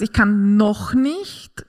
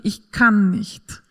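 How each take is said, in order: First: Slow „Ich kann noch nicht“ with noch leaned on and nicht rising hopefully; stress on noch. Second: Slow „ich kann nicht“ with kann stressed and nicht falling shut; flat final no. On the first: Mother teaching that „noch“ keeps the door open, slow and rising. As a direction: drag it out slowly, lift at the end on nicht. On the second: Mother showing the hopeless version, slow and falling. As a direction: drag it out slowly and let it drop at the end. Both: Shown as a demonstration. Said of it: "ist das was anderes wie".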